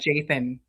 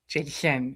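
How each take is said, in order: First: The name has a lisped th sound. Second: The name has a clear s sound. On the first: "that hard lisp" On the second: "Jason instead of"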